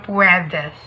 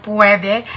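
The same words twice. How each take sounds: First: "puwedes" ending on a clear s; Spanish pronunciation. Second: "puwede" with no final s; Tagalog pronunciation. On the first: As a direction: say "puwedes" the Spanish way, pwe-des. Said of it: "In Espanyol". (bigkas Espanyol ng "puwedes") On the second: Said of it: "In Tagalog". (bigkas Tagalog ng "puwede") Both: Shown as a demonstration.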